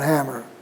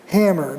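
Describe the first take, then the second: First: The a vowel is low and lax. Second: The a vowel is raised and tense. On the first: The speaker calls it wrong. "not hammer" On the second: The speaker calls it right. "Before intervocalic nasals"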